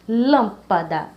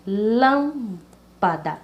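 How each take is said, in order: First: Lâmpada, lâm hit hard and slow; stress on lâm. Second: Lâmpada, very slowly drawn out, syllable by syllable. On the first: (ênfase forte em lâm de lâmpada) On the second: (lâmpada bem lenta, sílaba por sílaba) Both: Shown as a demonstration. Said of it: "a mais forte seria lã".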